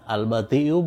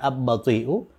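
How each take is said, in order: First: The l is pronounced clearly before the b. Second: The l blends into a doubled b sound. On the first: The speaker calls it right. "lam itu itu diucapkan dengan jelas" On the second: The speaker calls it wrong. "bukan ab-bati'u"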